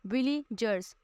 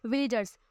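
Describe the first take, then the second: First: villagers broken as Willie, जर्स with a gap; syllable breakdown. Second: Said in the usual way. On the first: Shown as a demonstration. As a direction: say villagers slowly in separate parts. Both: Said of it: "हम इस तरह से बोलते हैं".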